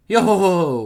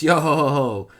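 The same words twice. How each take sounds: First: A light mock of Brook's laugh; imitated laugh. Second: Brook's laugh. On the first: The man repeats Brook's laugh, mildly mocking. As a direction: echo his odd laugh back at him. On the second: Acted. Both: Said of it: "That's an odd laugh you've got there".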